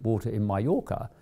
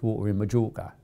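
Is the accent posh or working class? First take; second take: posh; working class. First: It is said in a smart, posh accent. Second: It is said in a working-class accent. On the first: This way of speaking is what used to be admired. The speaker calls it wrong. "it isn't talking in a smart accent that works" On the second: This way of speaking is what is admired now. The speaker calls it right. "it's talking in a working class accent that works"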